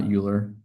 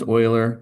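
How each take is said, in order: First: Euler misread as "YOO-ler"; mistaken pronunciation of Euler. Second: Euler said as "OY-ler"; correct pronunciation of Euler. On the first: Math teacher warns students off a misreading, Euler said "YOO-ler". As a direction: start Euler with a "you" sound. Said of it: "not Euler". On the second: Math teacher confirms the name to students, Euler pronounced "OY-ler". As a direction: start Euler with an "oy" sound, like "oiler". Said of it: "yes, it is pronounced Euler". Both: Shown as a demonstration.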